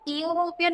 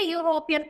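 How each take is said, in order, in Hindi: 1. शब्द की शुरुआत एक सादी स्वर ध्वनि से होती है। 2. शब्द की शुरुआत 'yu' की आवाज़ से होती है। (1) "हम इसको यूरोपियन नहीं पढ़ते" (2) "यूरोपियन पढ़ते हैं। ... यू की आती है"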